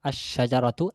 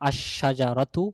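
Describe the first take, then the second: The two takes are said the same way.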